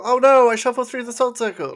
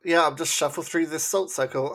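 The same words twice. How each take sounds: First: High, loud, hammed-up "oh no"; mock alarm. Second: Said in the usual way. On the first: Mocking the character breaking the salt circle, hammed-up surprise. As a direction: fake panic, overplayed.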